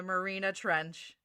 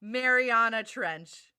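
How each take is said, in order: First: Marina Trench, said as Ma-ri-na with three syllables; mispronounced name. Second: Mariana Trench, slowly, with the four syllables Ma-ri-a-na; slow correction. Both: Shown as a demonstration.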